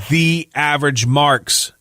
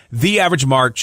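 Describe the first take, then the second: First: Slow deliberate promo code read; slow and careful. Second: Said in the usual way. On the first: Shown as a demonstration. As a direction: spell it out slowly, word by word. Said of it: "No space, one word". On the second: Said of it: "one word".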